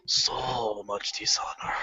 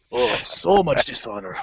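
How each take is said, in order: First: Slow, low whispered so much dishonor; ghostly whisper. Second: Said in the usual way. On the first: Retold or imitated. Scolding himself after getting caught, slow whisper. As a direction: breathe it out like a ghost. Self-reproach aside.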